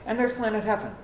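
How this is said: It is said in a flat, matter-of-fact way. The speaker calls it right. "Just matter of fact"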